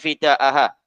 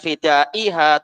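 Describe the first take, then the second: First: The vowel before the final ha is a. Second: The vowel before the final ha is i. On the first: The speaker calls it right. "tapi fida'aha" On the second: The speaker calls it wrong. "Bukan fida'iha"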